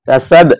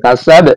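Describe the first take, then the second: Both takes have the same delivery.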